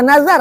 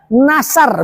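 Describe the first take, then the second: First: The middle consonant is a buzzing z sound. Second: The middle consonant is a hissing s sound. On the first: The speaker calls it right. "bukan nazar" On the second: The speaker calls it wrong. "mereka akan menyebut sin"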